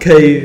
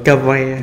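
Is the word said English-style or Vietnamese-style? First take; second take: English-style; Vietnamese-style. First: It is said as one English-style syllable. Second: It is said as two Vietnamese-style syllables. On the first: "Đọc chính xác là Cave" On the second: "đọc theo người Việt là Kavi"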